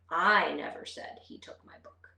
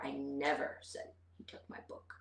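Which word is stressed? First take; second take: I; never. First: The stress is on the word I. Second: The stress is on the word never. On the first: Someone else said it, not me. "let's put the emphasis on the first word" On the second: I did not say it at all. "put the emphasis on never"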